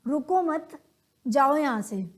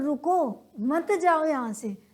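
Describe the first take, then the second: First: "रुको मत" run together, pause, then "जाओ"; pause after मत. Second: Drawn-out "रुको", break, then "मत जाओ" together; pause after रुको. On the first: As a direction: join मत to रुको, break before जाओ. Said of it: "बोलने के तरीके से उसकी सेंस चेंज हो जाती है". ("रुको मत" एक साथ, फिर "जाओ" से पहले विराम) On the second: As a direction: stop on रुको, join मत to जाओ. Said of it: "बोलने के तरीके से ही सेंस चेंज होगी". ("रुको" पर विराम, फिर "मत जाओ" एक साथ) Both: Shown as a demonstration.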